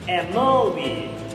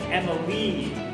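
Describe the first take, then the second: First: The stress falls on a later syllable. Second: The stress falls on the first syllable. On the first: The speaker calls it wrong. "we don't say Emily. That sounds very weird" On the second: The speaker calls it right. "We actually say Emily, right? So we put that emphasis on the E"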